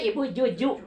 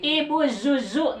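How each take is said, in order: First: The name begins with a j sound. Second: The name begins with a hissing z sound. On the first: The speaker calls it wrong. "Pami kejima ibu Juju. Wah, orang Sunda kamu" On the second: The speaker calls it right. "Nah, ini zai"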